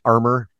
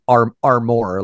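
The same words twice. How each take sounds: First: Said in the usual way. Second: "armor" with the weight on MOR; stress on second syllable. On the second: Shown as a demonstration. Co-host shows how the singer says it, "armor" stressed on the second syllable. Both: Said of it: "puts the emphasis on the second syllable".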